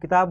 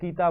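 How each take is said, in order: First: The first vowel is cut short. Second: The first vowel is held long. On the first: The speaker calls it right. "इसे अपन किताब बोलते हैं" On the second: The speaker calls it wrong. "अशुद्ध उच्चारण होगा"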